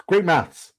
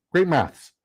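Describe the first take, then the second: No difference in how they are said.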